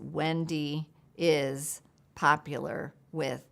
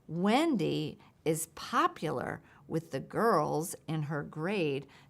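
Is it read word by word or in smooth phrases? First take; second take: word by word; smooth phrases. First: Each word is said separately, with pauses between. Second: The words flow together in smooth meaningful phrases.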